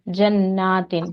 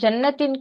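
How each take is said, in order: First: The second vowel is held for two counts. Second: The second vowel is held short. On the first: The speaker calls it right. "दो हरकत करने थे" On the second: The speaker calls it wrong. "इसको जन्नतिन कहा"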